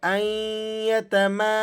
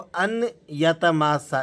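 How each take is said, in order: First: The n is silent and merges into ya. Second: The n sound is clearly pronounced before ya. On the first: The speaker calls it right. "इस नून को आपने साइलेंट कर देना है और हमज़ा को या से मिलाकर" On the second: The speaker calls it wrong. "अन करके जो पढ़ते हैं बात साथी, ये दुरुस्त नहीं है"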